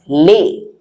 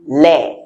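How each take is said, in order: First: "les" with a close, tight ay vowel; French pronunciation of les. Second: "les" with a more open eh vowel; regional pronunciation of les. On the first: Teacher showing how French people say it, closed "les". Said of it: "the French people pronounce it as les". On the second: Teacher showing other places' way, open "les". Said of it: "But in other places, they say les". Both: Shown as a demonstration.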